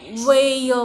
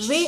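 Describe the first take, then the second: First: "वेय" with a separate य sound tacked on the end; drawn-out, louder "वेय", the final य sounded as its own syllable; wrong pronunciation. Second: "वे" as one joined syllable ending on a long ए; correct pronunciation. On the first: Teacher testing a wrong reading of "way" for learners, "वेय" with य voiced separately. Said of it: "ह्याचा उच्चार असा होईल का". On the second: Teacher giving learners the right reading of "way", "वे" in one joined long-ए syllable. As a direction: say "वे" with no separate य sound. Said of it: "या शब्दाचा उच्चार". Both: Shown as a demonstration.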